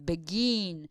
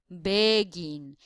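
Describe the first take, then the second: First: The last syllable is stressed and lengthened. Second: The first syllable is stressed and lengthened. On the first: The speaker calls it right. "We can extend the last syllable" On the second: The speaker calls it wrong. "We cannot say begin"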